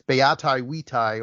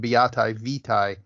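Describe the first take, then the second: First: It uses the classical Latin pronunciation. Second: It uses the church Latin pronunciation.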